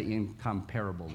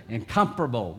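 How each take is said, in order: First: "incomparable" stressed on the third syllable, in-com-PARE-able; wrong stress. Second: "Incomparable" stressed on the second syllable, in-COM-parable; right stress. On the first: Retold or imitated. Preacher's old wrong way to say "incomparable" with PARE stressed. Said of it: "you pronounced that wrong". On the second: Shown as a demonstration. Preacher showing the right way to say "Incomparable", COM stressed. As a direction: say "Incomparable" as in-COM-par-able. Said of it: "That's the way you say it".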